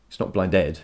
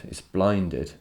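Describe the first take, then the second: First: Blinded stressed on the second syllable, blin-DED; blinded said the wrong way, as blin-DED. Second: Blinded stressed on the first syllable, BLIN-ded; blinded said as a trochee, BLIN-ded; right stress. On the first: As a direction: lean on the ending of blinded. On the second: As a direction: punch the start of blinded. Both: Shown as a demonstration.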